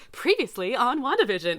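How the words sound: It is said in an excited, lively voice.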